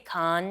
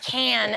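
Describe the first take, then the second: First: The vowel sounds like in 'con'. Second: The vowel sounds like in 'can'. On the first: It is the expected local way. The speaker calls it right. "you're supposed to say con" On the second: It is the way Americans say it. The speaker calls it wrong. "as the Americans say"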